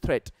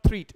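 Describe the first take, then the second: First: The vowel is a short 'e' sound. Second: The vowel is a long 'ee' sound. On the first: The speaker calls it right. "It is थ्रेट" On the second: The speaker calls it wrong. "It's not थ्रीट"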